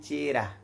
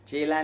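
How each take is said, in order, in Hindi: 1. बीच का व्यंजन र ध्वनि है। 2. बीच का व्यंजन ल ध्वनि है। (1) "ल ध्वनि र में बदल जाती है" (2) "ल ध्वनि र में बदल जाती है"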